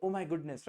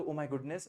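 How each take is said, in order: First: Mildly delighted exclamation; pleased. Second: Mildly saddened exclamation; dismayed. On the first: Teacher showing the positive use of the phrase, mildly pleased. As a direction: model a touch of happy amazement. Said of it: "आपको अच्छा लगे तो". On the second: Teacher showing the negative use of the phrase, mildly dismayed. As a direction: model a touch of distress. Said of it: "आपको दुख हुआ तो". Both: Shown as a demonstration.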